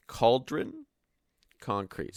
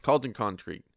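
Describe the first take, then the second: First: "Cauldron" pitched up with a rise, a pause, then "concrete." falls; careful split. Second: Said in the usual way. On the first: Shown as a demonstration. Streamer slowly untangling his tongue twister, splitting the words. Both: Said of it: "That's a fucking tongue twister".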